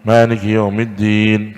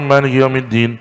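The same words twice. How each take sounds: First: The long vowels are held long. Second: The long vowels are cut short. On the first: Every letter of the recitation is kept. The speaker calls it right. "itu harus panjang ... panjang itu" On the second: Letters are dropped from the recitation. The speaker calls it wrong. "itu kan mengurangi huruf itu"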